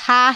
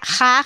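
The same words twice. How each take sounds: First: The j is a soft breathy h sound. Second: The j is rough, made at the throat's back. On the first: This is how it sounds in many regions. "en muchos lugares se pronuncia aspirada" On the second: This is how it sounds in Spain. "en español de España se pronuncia ... con uvular"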